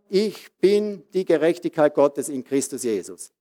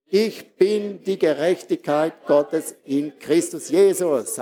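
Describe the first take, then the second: First: Said in the usual way. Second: Ich bin die Gerechtigkeit said slowly, rising on ich; slow emphatic declaration. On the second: Shown as a demonstration. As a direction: proclaim it word by word, leaning on ich. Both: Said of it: "Sag mal".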